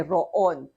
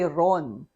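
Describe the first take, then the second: First: "roon" split as ro-on; syllabicated wrong way. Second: "ron" as one syllable; unsyllabicated pronunciation. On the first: Teacher showing what you don't say, syllabicated. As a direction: break "roon" into two syllables, ro-on. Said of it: "roon is not syllabicated". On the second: Teacher showing learners what to say, one syllable. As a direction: say "ron" slowly as a single joined syllable. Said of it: "So you say ron". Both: Shown as a demonstration.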